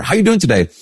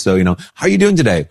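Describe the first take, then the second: First: A higher, lilting mock greeting; cheerful greeter. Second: Said in the usual way. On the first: Imitating an acquaintance's greeting, sung out higher. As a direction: chirp it like a friendly passer-by.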